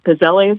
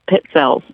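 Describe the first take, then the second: First: The double z sounds like a plain z. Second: The double z sounds like ts. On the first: The speaker calls it wrong. "the so-called Pizzelles or whatever" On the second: The speaker calls it right. "Two Z's in Italian is T S. ... That is the correct pronunciation"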